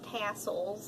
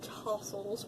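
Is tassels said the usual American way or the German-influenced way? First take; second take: American; German-influenced. First: It is said with the usual American pronunciation. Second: It is said with a German-influenced pronunciation. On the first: The speaker calls it wrong. "normally we Americans would say tassels" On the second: The speaker calls it right. "I say tassels"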